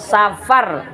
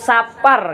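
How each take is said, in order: First: The middle consonant is an f sound. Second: The middle consonant is a p sound. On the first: This is the standard Indonesian form. "Safar kalau tulisan Indonesia" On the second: This is the Betawi or Javanese form. "Sapar kalau dalam bahasa Betawi atau Jawa"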